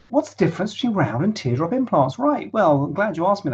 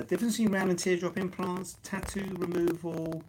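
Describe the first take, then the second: First: Big fancy microphone. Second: Thin, distant live-stream mic; crackly first mic. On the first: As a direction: reread on the better mic. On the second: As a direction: through a weak crackly mic. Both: Real, not acted. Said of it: "take two".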